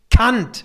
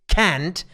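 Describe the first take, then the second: First: The name is said a non-Anglo-American way. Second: The name is said the Anglo-American way. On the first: The speaker calls it right. "It's Kant" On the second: The speaker calls it wrong. "In American or British colleges, they say Immanuel Kant. It's not Kant"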